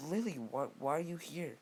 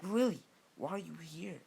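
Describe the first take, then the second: First: Raised-pitch, mildly acted surprise; higher, puzzled challenge to an unexpected visitor; surprised group question. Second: High, louder, mildly angry question; a touch of jealous indignation, pitched up; slightly angry tone. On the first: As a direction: ask it as a startled crowd would. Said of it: "they would all say". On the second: Acted. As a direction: confront the rival, lightly acted anger. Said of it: "like, an angry tone".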